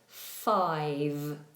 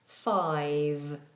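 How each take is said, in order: First: The final consonant is voiced, with throat vibration. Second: The final consonant is voiced, with throat vibration.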